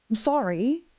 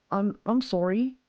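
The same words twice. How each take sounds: First: Said in the usual way. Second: Slow, tentative Australian "sorry"; attempted Aussie accent. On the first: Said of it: "how do I say it, Aussie?". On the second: Shown as a demonstration. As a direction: try an Australian accent, rising questioningly. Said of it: "was that, was that close?".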